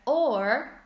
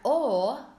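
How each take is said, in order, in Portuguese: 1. O som do R final é claramente pronunciado. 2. O som do R final é quase omitido. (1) "No americano seria or" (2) "no britânico seria o, quase sem o som do R"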